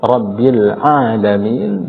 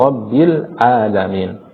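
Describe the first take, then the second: First: Slow "Rabbil alamin" with throat-squeezed ain; correct ain. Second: Slow "Rabbil alamin" with plain a; ain as hamzah. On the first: Teacher repeating the demonstration, throaty ain. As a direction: pull the first a of "alamin" from the throat. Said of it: "Nah, kita ulang". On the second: Teacher repeating the mistake, hamzah for ain. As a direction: open "alamin" on a simple hamzah, no throat squeeze. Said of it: "ain yang dibaca dengan". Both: Shown as a demonstration.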